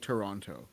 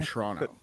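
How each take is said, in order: First: The name is said fully with every syllable clear. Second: The name is said in a clipped, casual form. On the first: It is the proper form of the name. "which is the pronounced" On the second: It is how locals casually say it. "that's the dialect of how you say it"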